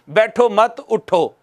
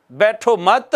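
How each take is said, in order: First: Said in the usual way. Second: बैठो मत held open on a rise, then a stop; pause after मत. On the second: Shown as a demonstration. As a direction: stop after मत, before उठो. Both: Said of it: "उसके बाद है वक्फ़े लाजिम".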